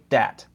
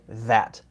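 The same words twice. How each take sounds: First: The first sound is a hard stop, not th. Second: The first sound is a soft th sound. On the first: The speaker calls it wrong. "Never say that" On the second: The speaker calls it right. "Always say that. ... you have to put your tongue between your teeth"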